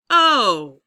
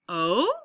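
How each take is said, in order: First: The pitch glides downward on the vowel. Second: The pitch glides upward on the vowel. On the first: It signals a realization. "Oh is a realization" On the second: It asks a question. "Oh is a question"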